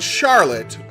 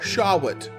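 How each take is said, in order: First: The name is said with a clear R sound. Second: The name is said with a W sound.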